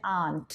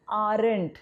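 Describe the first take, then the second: First: आंट with no r, like the word aunt; आंट, the correct form, no r at all; correct pronunciation. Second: आरंट with a clear rolled r, as the common mistake; आरंट, the mistaken form with the r pronounced; wrong pronunciation. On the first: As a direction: say आंट the right way, the r left silent. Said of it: "इसका pronunciation है आंट". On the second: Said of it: "but that is wrong". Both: Shown as a demonstration.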